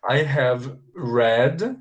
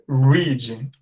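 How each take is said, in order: First: Slow "I have read", read like "red"; read with open E. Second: Teacher's careful long ee in read, like "reed". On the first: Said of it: "pronunciar com som de E aberto". (read com E aberto, bem devagar) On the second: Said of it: "a pronúncia com som de I". (read com som de I, bem pausado) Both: Shown as a demonstration.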